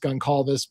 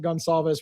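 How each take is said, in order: First: The C is said hard, like a K. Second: The C is said softly, like an S. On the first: "in Portuguese is probably a hard C" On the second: "I'm going to pronounce it Gonsalves"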